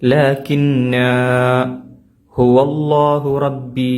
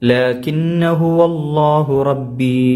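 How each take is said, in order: First: The first word ends in a lengthened vowel. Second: The first word ends in a short vowel. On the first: The reciter stops on the first word. "നിർത്തുകയാണെങ്കിൽ ലാകിന്ന എന്ന് ഒരു അലിഫ് നീട്ടി ഉച്ചരിക്കണം" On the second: The reciter joins it to what follows. "കൂട്ടി ഒതുകയാണെങ്കിൽ"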